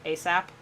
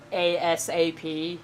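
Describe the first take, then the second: First: The letters are run together as one word. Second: Each letter is said separately. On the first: "pronounce the acronyms as a word" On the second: "Instead of just saying ASAP"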